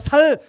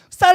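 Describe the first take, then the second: First: The first consonant is a plain s sound. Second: The first consonant is a tense s sound. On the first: "경상도에서 살 경상도네" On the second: "쌀 해봐"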